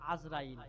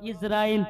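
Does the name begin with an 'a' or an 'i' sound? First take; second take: a; i. First: The name begins with an 'a' sound. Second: The name begins with an 'i' sound. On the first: The speaker calls it wrong. "অনেকে মানুষ বলে আজরাইল, ... কিন্তু আজরাইল হবে না" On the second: The speaker calls it right. "শব্দটা হবে ইসরাইল।"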